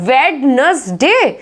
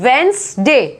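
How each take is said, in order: First: The first d is clearly pronounced. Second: The first d is silent. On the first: The speaker calls it wrong. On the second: The speaker calls it right.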